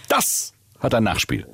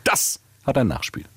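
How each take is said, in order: First: Langsam, Nachdruck auf ein, wie ein Wutbürger; empörte Drohung. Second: Locker und gelassen, Druck auf hat; beiläufig entspannt: Das HAT ein Nachspiel; ganz entspannt. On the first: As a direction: drohend langsam: Das hat EIN Nachspiel. (empörter Kunde droht langsam) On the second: (ganz entspannt gesagte Drohung) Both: Acted. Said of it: "Und das Nachspiel dann wieder ganz entspannt".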